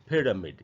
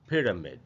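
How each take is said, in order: Both takes have the same delivery.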